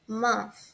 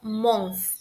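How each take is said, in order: First: The vowel is a soft, open 'a'-like sound. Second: The vowel is a deep, rounded 'o' sound. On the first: The speaker calls it right. "É como se a gente tivesse uma letra A no lugar do O, mas também bem suave" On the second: The speaker calls it wrong. "a gente não fala month. Não é um som é, mais grave no O"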